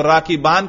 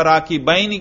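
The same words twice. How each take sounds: First: "राकिबान" with a long aa in the last syllable; raf form ending. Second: "राकिबैन ही" with an ai diphthong before n; nasb form ending. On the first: Teacher offers students a choice of endings, "राकिबान" with long aa. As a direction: say "राकिबान" ending in open -aan. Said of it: "राकिबान कहना चाहिए या राकिबैन ही". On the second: Teacher offers students a choice of endings, "राकिबैन ही" with ai. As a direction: say "राकिबैन ही" with -bain, not -baan. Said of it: "या राकिबैन ही कहना चाहिए". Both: Shown as a demonstration.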